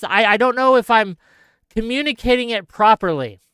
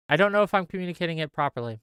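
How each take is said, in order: First: Said in the usual way. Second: Softer and fast, half to himself; muttered repeat. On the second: Real, not acted. Vlogger doubting himself to viewers, fast soft mutter. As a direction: mutter it again under your breath.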